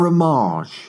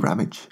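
First: The name is pronounced in a posh-sounding way. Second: The name is pronounced in a plain, ordinary way.

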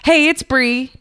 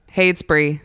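First: It is said in an excited, happy way. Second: It is said in a flat, monotone way.

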